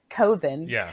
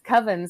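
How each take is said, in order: First: The first vowel does not rhyme with oven. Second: The word rhymes with oven. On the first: This is the filmmaker's chosen way of saying the title. "he pronounces it Coven" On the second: This is the usual way of saying the word. "Coven sounds like oven"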